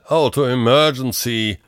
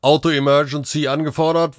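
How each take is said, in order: First: Slow, scornful echo; drawn-out, higher-pitched mockery; contemptuous scoff. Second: Matter-of-fact dispatch report, pitched high; higher machine-like status report; robot dispatcher. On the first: A narrator's reading. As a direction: spit it out with disdain. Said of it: "stieß Kunz verächtlich aus". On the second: Acted. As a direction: announce it like an automated operator. Robot dispatcher reports over radio.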